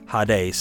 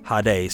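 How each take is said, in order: First: It is said with a Greek-style pronunciation. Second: The same.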